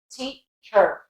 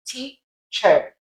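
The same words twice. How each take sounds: First: American teacher with a strong final R; teacher ending in a full "cher", American; American accent. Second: British Teacher, split, ending "chuh"; Teacher without an R, British schwa; British accent. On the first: Teacher contrasting with British, American accent. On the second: Teacher showing British against American, British accent. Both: Shown as a demonstration. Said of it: "Whereas American".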